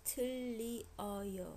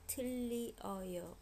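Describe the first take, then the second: First: The vowels are said separately, in three syllables. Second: The vowels are said separately, in three syllables.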